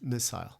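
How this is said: It is said in a British accent. "If you speak British English"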